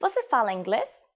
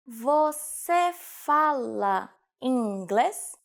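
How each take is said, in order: First: Said in the usual way. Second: Very slow, word by word; slow teaching repetition. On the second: Shown as a demonstration. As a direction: draw out "Você fala inglês" syllable by syllable for learners. Teacher repeats phrase slowly for learners. (slowed-down language-lesson model)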